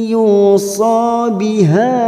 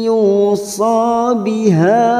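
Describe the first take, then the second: No difference in how they are said.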